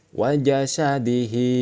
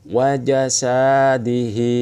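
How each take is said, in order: First: The syllable sa is said short. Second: The syllable sa is drawn out long. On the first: "Tidak dibaca panjang karena tidak ada alif" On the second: "Mengapa ini dibaca panjang?"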